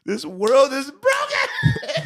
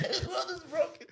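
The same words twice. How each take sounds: First: Slow, louder, laughing through it; laughing mock outrage. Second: Much softer, higher, through laughter; laughing repeat. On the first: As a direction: proclaim it slowly while cracking up. Laughing disbelief at clip. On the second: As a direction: say it again breathless with laughter. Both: Real, not acted.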